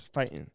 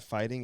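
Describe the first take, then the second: First: "fighting" with a dropped g, as fightin'; "fighting" clipped to fight-in'. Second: Said in the usual way. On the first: Shown as a demonstration. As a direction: say "fighting" East Coast style, swallowing the ending. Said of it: "it's not fighting, it's fighting". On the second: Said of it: "it's not fighting".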